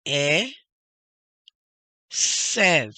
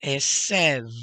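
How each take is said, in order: First: E, long pause, loud SEV; emphatic split e ... sev; syllable by syllable. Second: ESEV joined up and loud; whole word. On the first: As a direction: sound out e and sev separately. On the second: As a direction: blend e and sev into Esev. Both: Shown as a demonstration. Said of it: "Next word".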